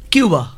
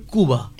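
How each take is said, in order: First: কিউবা with the English kyu sound; Bengali-English কিউবা; our way. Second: কুবা with a plain ku, no y; Spanish কুবা; real way. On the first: Guest contrasts the usual Cuba with the real one: কিউবা. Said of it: "আসল উচ্চারণ কুবা". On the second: Guest gives the real Spanish sound of Cuba: কুবা. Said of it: "আসল উচ্চারণ". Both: Shown as a demonstration.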